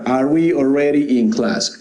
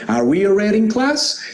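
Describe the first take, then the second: First: The pitch stays flat at the end. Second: The pitch rises at the end. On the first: It sounds like a statement. The speaker calls it wrong. "Eso no. ... esa suena como afirmación, pero no es pregunta" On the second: It is a question. The speaker calls it right. "Una pregunta es como"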